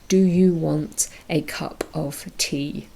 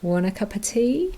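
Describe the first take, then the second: First: Each word is said separately and fully. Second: The words are reduced and run together. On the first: "pronounce each word separately, individually" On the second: "you probably practiced saying"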